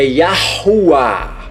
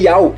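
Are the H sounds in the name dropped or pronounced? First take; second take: pronounced; dropped. First: The H sounds are pronounced across several syllables. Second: The H sounds are dropped, giving one short syllable. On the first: The speaker calls it right. "Bem na pronúncia" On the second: The speaker calls it wrong. "você está omitindo este H aqui"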